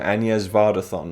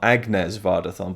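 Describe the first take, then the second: First: Agnes is pronounced the native French way. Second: Agnes is pronounced the anglicized English way. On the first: The speaker calls it right. "welcome to Agnes Vardathon" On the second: The speaker calls it wrong. "not, not Agnes Vardathon"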